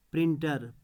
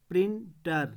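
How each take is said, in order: First: Said in the usual way. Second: printer in two beats, prin, then tar; split into syllables. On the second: Shown as a demonstration. Teacher showing where the dot goes, split into syllables. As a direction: break printer with a gap after prin. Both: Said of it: "इसके बाद dot".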